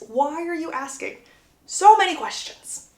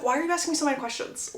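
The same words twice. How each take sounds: First: Higher pitch, "so" stretched and punched; emphatic questioning. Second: Fast, higher-pitched retort, acted out; mock-exasperated, hurried question; quick questioning. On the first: Retold or imitated. Same question repeated with emphasis. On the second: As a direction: fire the question back in one quick run. Acted exasperated question, first take.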